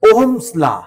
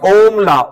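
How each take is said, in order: First: An s sound follows Ohm before law. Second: No s sound follows Ohm before law. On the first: The speaker calls it right. "ओम नहीं बोलना, ओम्स law." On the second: The speaker calls it wrong. "कई बच्चे बोलते ओम law"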